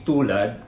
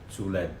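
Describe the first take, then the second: First: The word begins with a plain t sound. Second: The word begins with a ch sound. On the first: "It's supposed to be tulad" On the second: "she pronounced it as chulad"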